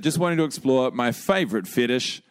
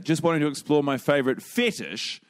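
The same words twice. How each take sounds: First: The word fetish gets no extra emphasis. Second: The word fetish is strongly emphasized.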